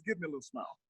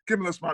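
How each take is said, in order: First: Much softer mock coaxing; softer coaxing dad. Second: Said in the usual way. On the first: Dad coaxing his son after spanking, hushed. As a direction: murmur dad's line after the spanking. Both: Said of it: "he says".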